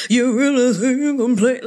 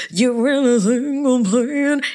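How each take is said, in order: First: Same sassy challenge, said again; a touch louder sassy dare. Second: Sassy challenge. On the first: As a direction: repeat the dare with attitude. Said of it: "Let me repeat it one more time". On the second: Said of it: "I wanna do that". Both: Pretend.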